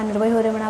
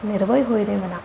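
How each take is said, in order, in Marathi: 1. ती पटापट, अस्पष्ट आणि भावनेविना म्हटली आहे. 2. ती स्पष्ट आणि भावनेने म्हटली आहे. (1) "ते शब्द त्यांचे काय बडबडतात" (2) "अशा टोनमध्येच तुम्हाला ते म्हणायचं आहे"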